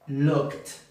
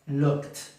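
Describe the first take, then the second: Both takes have the same delivery.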